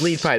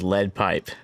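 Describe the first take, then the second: First: 'Lead' sounds like the start of 'leader'. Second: 'Lead' sounds like the name of the metal. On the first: The pipe leads into the instrument. The speaker calls it right. "no, it is lead pipe" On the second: The pipe is made of the metal. The speaker calls it wrong. "I thought it was lead pipe"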